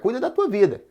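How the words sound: It is said in an annoyed, rude tone.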